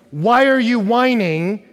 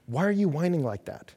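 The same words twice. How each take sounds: First: Loud, high, slow and drawn out; exasperated demand. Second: Said in the usual way. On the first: Acted. Parent telling daughters to stop whining, loud demand. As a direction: make the question an order to stop.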